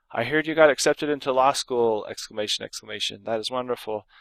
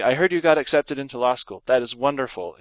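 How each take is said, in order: First: Overdone excitement. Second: Warm congratulations with one lift; pleased but not overdone; measured excitement. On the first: Teacher demoing an overdone exclamation, hammed-up. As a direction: pile on the enthusiasm. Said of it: "that's overdoing it". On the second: Teacher reading the adequate example, lightly excited. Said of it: "an exclamation point would be adequate". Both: Shown as a demonstration.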